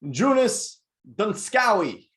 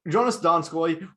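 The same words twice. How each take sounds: First: The name is pronounced in an odd, mangled way. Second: The name is pronounced in the usual way. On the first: The speaker calls it wrong. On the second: The speaker calls it right.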